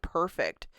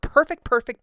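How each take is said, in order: First: Said in the usual way. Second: Higher and louder, gushing; excited. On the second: Real, not acted. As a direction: rave about it, delighted.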